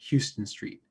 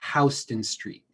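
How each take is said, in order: First: Houston begins with a 'hue' sound. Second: Houston begins with a 'how' sound. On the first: This is how the Texas city is said. The speaker calls it wrong. "It is not" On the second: This is how locals in the city say it. The speaker calls it right. "it is Houston Street. That's how people in the city pronounce it"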